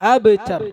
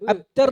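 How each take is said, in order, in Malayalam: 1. b ശബ്ദം പ്രതിധ്വനിക്കുന്ന കുതിപ്പോടെ വിടുന്നു. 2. b ശബ്ദം കുതിപ്പില്ലാതെ നിശബ്ദമായി പിടിച്ചുനിർത്തുന്നു. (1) "എങ്ങനെ പറയണം?" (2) "അബ്തർ എന്ന് പറഞ്ഞാൽ തെറ്റാണ്"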